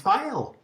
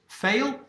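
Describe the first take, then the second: First: It does not sound like the word fail. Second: It sounds like the English word fail. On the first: It is the name as his parents gave it. The speaker calls it right. "His mother and father gave him the name Fael" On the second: It is the local English reading of the spelling. The speaker calls it wrong. "Does he pronounce it fail? Absolutely not"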